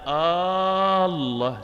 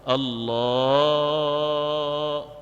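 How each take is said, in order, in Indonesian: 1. Vokal di awal dipanjangkan. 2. Vokal setelah L dipanjangkan. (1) "Jangan Allah. Salah ya kalau kayak gitu ya. Itu kayak seolah-olah kayak istifham" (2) "setelah huruf lam dari lafaz lafzul jalah jalalah Allah"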